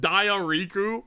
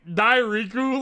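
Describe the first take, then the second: First: The name begins like the word 'diarrhea'. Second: The name begins with a plain 'dye-ree' sound. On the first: The speaker calls it wrong. "like Diariku ... I'm pronouncing it like diarrhea" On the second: The speaker calls it right. "you say Dairiku"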